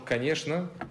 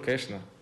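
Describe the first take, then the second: First: The word is said with all its syllables. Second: The word is said shortened, with syllables dropped. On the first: "если я скажу «хорошо», «конечно»" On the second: "и скажу «кэшно»"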